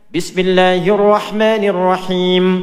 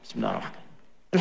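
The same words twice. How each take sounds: First: It is said loudly, out loud. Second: It is said quietly, under the breath.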